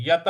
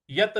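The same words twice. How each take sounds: First: यत with a full य and a full त; correct pronunciation. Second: यत run together, य and त not given their full sound; wrong pronunciation. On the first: Teacher showing students the right way to say यत. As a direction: give each sound of यत its full value. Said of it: "तो हमें बोलना है यत". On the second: Teacher showing students the wrong way to say यत. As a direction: say यत the wrong way, clipped. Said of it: "यत नहीं बोलना है". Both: Shown as a demonstration.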